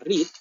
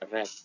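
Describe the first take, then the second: First: The word is said as the present form. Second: The word is said as the past form. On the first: It is the base form of the verb. "Untuk verb satu kita baca cara bacanya read" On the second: It is the past or past participle form. "Untuk verb dua dan verb tiga-nya cara membacanya read"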